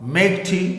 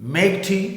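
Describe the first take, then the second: Both takes have the same delivery.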